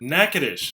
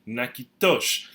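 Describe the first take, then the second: First: The name is said with an Anglicized pronunciation. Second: The name is said with a Louisiana French pronunciation. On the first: "the pronunciation in English is uh, reflective of Anglicization" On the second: "in Louisiana French and also in Kourivini, we pronounce it"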